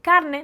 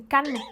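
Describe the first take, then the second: First: Said in the usual way. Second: "carne" with the R swallowed into the N; R not pronounced. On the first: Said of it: "Carne, dicen carne". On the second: Shown as a demonstration. Showing how Havana says "carne", dropping the R. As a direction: say "carne" as "canne", Havana style. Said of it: "no pronunciar la R".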